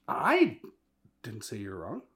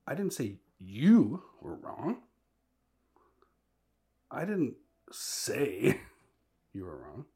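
First: First word shouted, the rest plain; stress on I. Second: Slow and loud with a rising you; you lifted and stretched; stress on YOU, slow. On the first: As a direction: hit the word I hard. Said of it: "You could say it this way". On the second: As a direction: lean on you in you were wrong, drawn out. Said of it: "put a different emphasis and inflection". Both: Shown as a demonstration.

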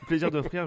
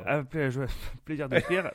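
First: Said in the usual way. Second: Laughing through the words. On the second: Real, not acted. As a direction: chuckle while saying it. Jokey thanks, laughing.

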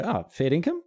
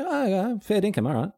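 First: FAIR DINKUM asked as a doubting question, raised in pitch; disbelieving question. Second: High "oh, yeah" easing into an accepting "fair dinkum"; casual acknowledgement. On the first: Speaker showing how to doubt someone's claim, "fair dinkum" as a sceptical question. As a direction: say "fair dinkum" as if checking it's true. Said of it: "use it as an interrogatory".

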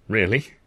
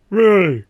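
First: Said in the usual way. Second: Loud high falling really; firm insistence. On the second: A narrator's reading. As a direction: slam it down firmly. Arthur insisting back.

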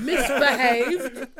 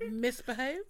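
First: Slow, louder, drawn-out posh "Misbehaved?"; terribly posh. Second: Said in the usual way. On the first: Pretend. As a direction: stretch "Misbehaved?" like a toff, laughing. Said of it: "That sounded terribly posh".

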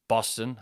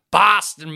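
First: Said in the usual way. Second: Loud, higher American drawl on "Boston"; "Boston" in a big mock American accent; hammed-up American accent. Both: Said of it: "Same accent".

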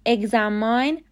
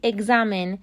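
First: Examine ending in -mine like the word mine, slowly; wrong pronunciation. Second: Examine with a short i in the last syllable, ig-ZA-min; correct pronunciation. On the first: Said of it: "examine غلطه". (تلفظ غلط examine با «ماین» در آخر، آهسته) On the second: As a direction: say examine ending in -min, not -mine. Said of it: "تلفظ صحیح examine". (تلفظ درست examine با صدای «مین» کوتاه در آخر) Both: Shown as a demonstration.

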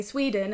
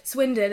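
First: "Sweden" with a long ee, SWEE-den. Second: "Swindon" with a short i, SWIN-dun; name the town clearly as "Swindon". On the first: People mishearing her hometown, saying "Sweden". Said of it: "And then they say". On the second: Telling people where she's from, saying "Swindon". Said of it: "And then they say, "Sweden". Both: Retold or imitated.

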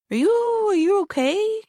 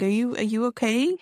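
First: High, rising careful question; cautious, high-pitched check-in; tentative concern. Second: Said in the usual way. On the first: Retold or imitated. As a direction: gingerly check on a child, voice way up. Checking on a staring child.

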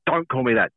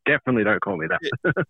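First: Said in the usual way. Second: "don't" pushed higher and harder; stress on don't. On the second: Real, not acted. [name] protesting at the new nickname, stress on "don't". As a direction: lean on "don't", firm protest.

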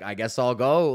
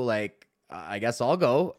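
First: Said in the usual way. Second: Drawn-out, slow shrug of a line; reluctantly volunteering; slow resigned. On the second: Retold or imitated. Comedian to fellow comic before going on, slow and resigned.

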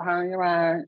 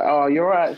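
First: Lightly voiced girl, higher pitch; higher, lightly put-on greeting of a girl; imitated girl's greeting. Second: Said in the usual way. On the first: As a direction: mimic her sing-out hello, pitched up. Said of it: "That's how she sounds". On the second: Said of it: "and I was like".

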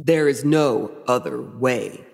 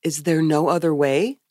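First: Low, slow, final villain answer; solemn stagey devil; Michael Baum Lucifer. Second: Lightly voiced empty-headed innocent asking; a hint of vacant wonder; blank Eve. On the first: Acted. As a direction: intone it gravely, drawing out each word. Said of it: "And Lucifer says". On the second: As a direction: ask it blankly with a questioning lift. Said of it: "with blank face".

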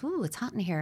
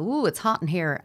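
First: Notice the heat without feeding it; calm noticing. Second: Louder, agitated ooh as the heat rises; heated reaction. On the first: Parent as thermostat noticing child's distress, calm. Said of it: "But a thermostat says". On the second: Parent as thermometer reacting to child's distress, heated. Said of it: "the thermometer will go in and go". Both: Retold or imitated.

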